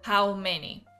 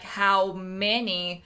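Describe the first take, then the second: First: The words are mumbled and hard to make out. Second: The words are spoken clearly and easy to recognize. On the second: "that you easily recognize what they're saying"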